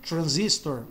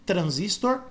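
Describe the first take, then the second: First: Transistor with American R, stress on ZIS; English pronunciation. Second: Transistor with Brazilian R, stressed at the end; Portuguese pronunciation. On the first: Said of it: "no inglês americano eles pronunciam como R". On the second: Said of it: "por isso que fica". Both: Shown as a demonstration.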